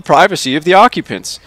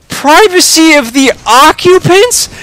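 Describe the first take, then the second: First: Said in the usual way. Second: Very high, loud incredulous echo; outraged exclamation. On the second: A narrator's reading. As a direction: throw it back in disbelief. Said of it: "exclaims Charlie".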